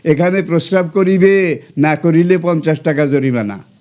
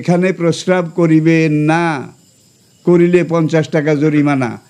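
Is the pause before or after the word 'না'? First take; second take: before; after. First: The pause comes right before the word 'না'. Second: The pause comes right after the word 'না'.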